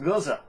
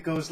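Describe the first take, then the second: First: "Goza" as GOH-zuh; two-syllable Goza. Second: "Goze" as one syllable, no final vowel; "Goze" rhyming with "rose". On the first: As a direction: sound the final vowel of "Goza". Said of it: "I've been told that it's pronounced". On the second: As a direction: say "Goze" with a silent E, ending on the z. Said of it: "I pronounced it Goze last time". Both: Shown as a demonstration.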